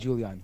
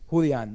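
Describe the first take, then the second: First: The name is said the English way. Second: The name is said the Spanish way. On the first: The speaker calls it wrong. "not Julian" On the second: The speaker calls it right. "It's n- you know it's a Mexican name"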